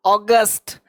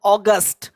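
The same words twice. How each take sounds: The two takes are said the same way.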